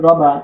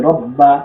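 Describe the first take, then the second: First: "রবা" with a quick single ব; light, undoubled consonant. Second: "রব বা" with the ব held long and hard; firm doubled consonant. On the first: Teacher showing the shadda dropped, light single ব in "রবা". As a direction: say "রবা" with no pressure or hold on ব. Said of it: "এখন আমি যদি এখানে এভাবে পড়ি". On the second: Teacher modelling the correct reading, firm held ব in "রব বা". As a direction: press into the doubled ব of "রব বা". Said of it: "শক্ত করে ধরতে হবে". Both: Shown as a demonstration.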